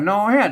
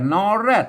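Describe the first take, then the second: First: The second syllable begins with an h sound. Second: The second syllable begins with an r sound. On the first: This is the Lanna pronunciation. "ตรงเมืองกับนอแฮด" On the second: This is the Central Thai pronunciation. "ถ้าเป็นไทยกับนอแรด"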